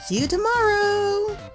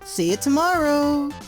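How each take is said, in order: First: It is said in a happy, cheerful way. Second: It is said in a flat, plain way.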